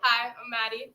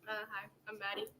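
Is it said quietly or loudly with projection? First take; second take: loudly; quietly. First: It is said loudly with a projected voice. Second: It is said quietly and hesitantly.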